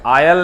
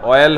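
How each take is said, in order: First: आयल with an open "aa-yal" start; UP-style pronunciation. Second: ऑयल with a rounded "o-yal" start; corrected pronunciation. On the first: Retold or imitated. Teacher correcting a student from UP, आयल said with "aa". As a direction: say आयल, "aa" in place of "o". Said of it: "UP वाला ऑयल को आयल बोलता है". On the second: Shown as a demonstration. Teacher correcting a student, ऑयल said with rounded "o". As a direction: say ऑयल, "o" in place of "aa". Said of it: "आयल नहीं होता है".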